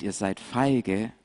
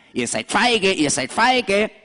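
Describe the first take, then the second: First: Said in the usual way. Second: Higher jeering goat voice; taunting goat. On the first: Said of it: "je mehr der schreit". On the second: Acted. Goat jeers at the lambs, higher and mocking. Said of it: "der schreit immer wieder".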